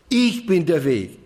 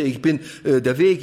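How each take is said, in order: First: „Ich“ hoch angesetzt und betont, dann fallend; Betonung auf Ich. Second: „Weg“ betont, „ich bin“ beiläufig; Betonung auf Weg. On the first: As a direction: setz den Nachdruck auf „Ich“. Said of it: "dann liegt die Betonung immer auf ich". (Akzent auf „Ich“, danach abfallend) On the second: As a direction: leg das Gewicht auf „Weg“. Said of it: "da macht man die Betonung auf". (Aufzählung mit Akzent auf „Weg“) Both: Shown as a demonstration.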